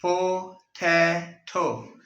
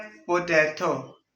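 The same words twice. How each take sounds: First: "पोटैटो" very slow, a pause after each syllable; broken into syllables. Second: "पोटैटो" said slowly as one word; slow word demo. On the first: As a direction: split "पोटैटो" into three separate beats, po, tai, to. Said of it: "syllables में change करते हैं". ("पोटैटो" तीन टुकड़ों में, रुक-रुक कर) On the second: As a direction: say "पोटैटो" slowly, without breaking it up. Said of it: "और एक word बोलना है". ("पोटैटो" धीरे से, एक लफ्ज़ में) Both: Shown as a demonstration.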